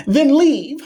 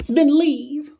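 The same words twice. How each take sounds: First: High squeaky then leave, louder; a cartoon-high brush-off; tossed-off falsetto dismissal; squeaky mock voice. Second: A cartoon-high brush-off; tossed-off falsetto dismissal; squeaky mock voice. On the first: Mocking repeat of dismissal. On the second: Second high repeat.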